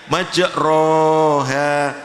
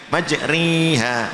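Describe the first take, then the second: First: The long vowel is a plain open 'a'. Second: The long vowel leans strongly toward 'i'. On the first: "dibaca alif seperti tegak" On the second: "dekat dengan i"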